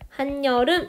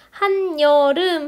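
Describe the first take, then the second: First: The second syllable begins with an n sound. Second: The second syllable begins with a y sound. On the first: The speaker calls it right. "실제 우리 발음을 ... 한여름 이렇게 발음을 하시죠" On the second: The speaker calls it wrong. "한여름이 아니라"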